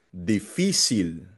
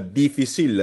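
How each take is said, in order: First: The stress is on the middle syllable fi. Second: The stress is not on the middle syllable. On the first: The speaker calls it right. "Nasa fi" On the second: The speaker calls it wrong. "Hindi siya difficile"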